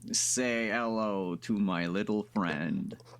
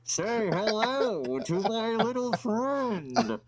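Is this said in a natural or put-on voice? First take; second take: natural; put-on. First: It is said in the speaker's ordinary voice. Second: It is said in an imitated character voice.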